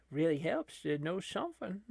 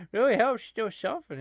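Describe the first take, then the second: First: Said in the usual way. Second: "Really helps to know something" louder, higher and faster, "really" punched; emphatic repeat. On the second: Shown as a demonstration. Commentator repeating his line to viewers with mock pride. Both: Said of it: "repeated with emphasis".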